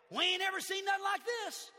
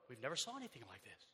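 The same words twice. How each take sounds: First: Put-on amazed crowd in a Southern accent; Southern lingo. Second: Said in the usual way. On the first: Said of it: "That's just Southern lingo". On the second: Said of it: "That's just Southern lingo for".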